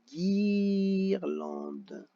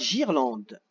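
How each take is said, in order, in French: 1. Ça commence par le son dur g. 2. Ça commence par le son doux zh. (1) "il faut que je rajoute le U pour marquer guirlande" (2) "si je mets seulement un G, ça fera girlande"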